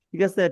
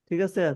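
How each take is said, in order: The two takes are said the same way.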